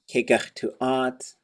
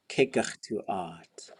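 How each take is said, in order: First: The word is said with a high tone. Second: The word is said with a low tone. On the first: We are going to go up. "the high tone would be we're gonna go we're gonna go up" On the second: Let's go up. "low tone, let's go up"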